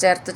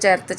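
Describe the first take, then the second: Both takes have the same delivery.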